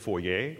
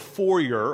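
First: The word is said the French way. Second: The word is said the usual English way.

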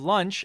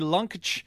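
First: The word is said with its usual pronunciation. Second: The word is said with an odd, distorted pronunciation. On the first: It is the ordinary way to say it. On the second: It echoes a cartoon's joke pronunciation.

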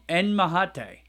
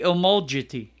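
First: The J is sounded like an H. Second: The J is sounded like an English J. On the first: "wouldn't the J be, wouldn't it be mahate?" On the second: "I would say omogeti"

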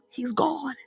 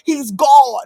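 First: It is said lower than usual. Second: It is said louder than usual. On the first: "I'm going to say it a little bit lower" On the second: "I'm going to say it a little louder"

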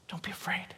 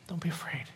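The two takes are said the same way.

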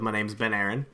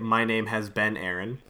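First: The phrase is said fast, words running together. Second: The phrase is said slowly, each word distinct.

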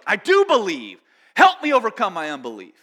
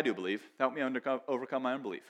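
First: It is said passionately, with urgency and tension. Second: It is said calmly, without urgency or passion. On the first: The plea is desperate and heartfelt. The speaker calls it right. "So there's passion behind this. It's like" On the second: The plea is casual and not deeply felt. The speaker calls it wrong. "I don't read it with a guy going"

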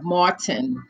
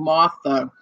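First: The name is said clearly, ending in a crisp n. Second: The name is reduced, ending without a clear n. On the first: The speaker calls it right. "instead of Martin" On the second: The speaker calls it wrong. "when we say it fast, it sounds like you're saying Martha"

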